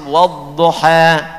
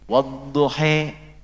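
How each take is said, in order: First: The final vowel is an open 'a' sound. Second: The final vowel is leaned toward an 'e' sound. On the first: "Ketika dibacakan Hafiz dari Asim" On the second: "riwayat untuk mengakomodir yang e"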